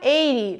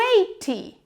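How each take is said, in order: First: The middle consonant is a quick flap. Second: The middle consonant is a clear t. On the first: "ele vira eighty. ... Do flap" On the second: "O eighty"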